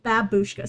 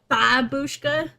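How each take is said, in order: First: The stress is not on the first syllable. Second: The stress is on the first syllable. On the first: "I'm saying babushka" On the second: "like where it's all strength is in the first syllable?"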